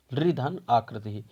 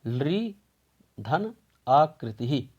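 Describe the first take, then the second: First: Said in the usual way. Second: धन आकृति ही said slowly, word by word; slow teacher dictation; slow careful split. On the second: Shown as a demonstration. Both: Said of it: "इसकी संधि विच्छेद हम करेंगे".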